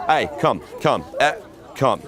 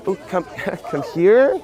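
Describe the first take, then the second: First: Short, firm one-word orders; commanding. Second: High, hesitant mock invitation, lifting at the end; wrong, unsure tonality. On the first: Pickup coach showing how to move her, commanding. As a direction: order her over with no question in it. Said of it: "it's commanding". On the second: Pickup coach showing how not to call her, hesitant. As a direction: imitate asking her over tentatively. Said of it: "it's not like". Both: Shown as a demonstration.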